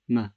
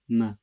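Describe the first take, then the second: Both takes have the same delivery.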